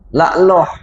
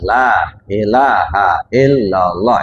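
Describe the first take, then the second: First: The phrase is squeezed into two short syllables. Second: Every syllable of the phrase is clearly pronounced. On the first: The speaker calls it wrong. "Udah berubah itu" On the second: The speaker calls it right. "seharusnya jelas"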